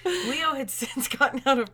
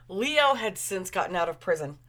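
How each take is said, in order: First: Higher reading about to crack up; fighting giggles. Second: Said in the usual way. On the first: Real, not acted. Reader retrying a line, fighting giggles. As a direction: try to read while holding in a laugh.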